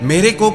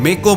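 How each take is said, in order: First: The word is said in full, with both syllables. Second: The word is clipped, dropping a syllable. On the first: The speaker calls it right. "की जगह" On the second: The speaker calls it wrong. "मेरे को की जगह मे को बोलेंगे"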